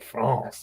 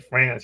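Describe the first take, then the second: First: France is said with a French-like vowel. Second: France is said with an American vowel. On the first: The speaker calls it right. "you say France" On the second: The speaker calls it wrong. "you don't say France"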